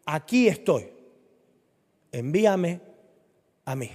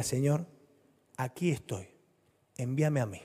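First: Said in the usual way. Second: Softer, humble prayer; quiet surrender. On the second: Acted. Believer quietly telling the Lord to send them. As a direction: offer yourself quietly to the Lord.

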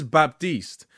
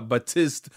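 First: Baptiste said bap-TEEST, drawn out; correct pronunciation. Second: Baptiste said ba-TIST, p dropped; mispronunciation. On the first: Correcting listeners on the name, Baptiste pronounced bap-TEEST. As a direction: say Baptiste with a clear p and a long ee. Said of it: "or whatever the fuck it is". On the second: Showing how not to say the name, Baptiste mispronounced ba-TIST. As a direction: say Baptiste with no first p and a short i. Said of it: "not Bap-, not, not Ba". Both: Shown as a demonstration.

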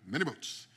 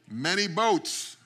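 First: Put-on light Jamaican accent, softly; Jamaican accent, quiet. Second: Put-on slow, loud Jamaican accent. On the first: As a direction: say "Many boats" in a soft Jamaican lilt. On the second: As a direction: drag out "Many boats" loudly in a Jamaican accent. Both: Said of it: "he had this very thick Jamaican accent".

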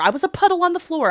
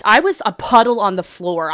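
First: Much higher and fast, overdramatic; dramatic repeat. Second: Said in the usual way. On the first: Real, not acted. Vlogger to her viewers, hamming up her crying, high and fast. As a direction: repeat it as a melodramatic wail. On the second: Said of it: "repeat said differently".

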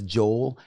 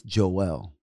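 First: Joel in one syllable, JOHL; written-style reading. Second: Joel in two syllables, JOH-el; Bible pronunciation. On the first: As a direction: say Joel as "jole", rhyming with coal. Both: Shown as a demonstration. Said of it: "the way it's pronounced".

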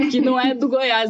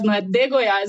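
First: Said in the usual way. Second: "de" lightly stressed as the correct form. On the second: Shown as a demonstration. Repeating the correction she gets, light stress on "de". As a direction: lean a little on "de" in "de Goiás". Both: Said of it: "já me corrigiram várias vezes".

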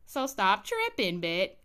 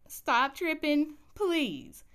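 First: Said in the usual way. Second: Begging a TV character to stop being difficult; exasperated plea. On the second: Retold or imitated. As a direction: stretch it out like you've had enough. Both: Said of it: "I start getting upset with Bet".

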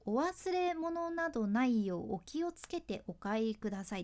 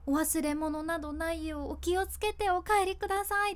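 First: Flat, mechanical 「お忘れ物などないようお気をつけてお帰りください」; rattled off like a memorized script; monotone reading. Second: Caring, meaningful 「お忘れ物などないようお気をつけてお帰りください」 with a lift on 帰; sincere, thankful closing line; heartfelt. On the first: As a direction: read it off with no meaning behind it. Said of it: "ただただもう棒読みで、しかも早口で". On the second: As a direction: say it as if you truly care they get home safe. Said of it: "気持ち出すとそういう感じ". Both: Shown as a demonstration.

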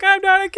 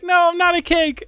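First: Very high, loud mock cry; mock panicked protest. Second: High-pitched, loud mock denial; mock protest. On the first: Meme guy facing the knife, high and loud mock panic. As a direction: cry out in hammed-up protest, voice soaring. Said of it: "And then the guy's like". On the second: Meme victim denying he is cake, in a high, loud mock protest. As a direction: imitate someone protesting, voice pitched way up. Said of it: "And then he's like".

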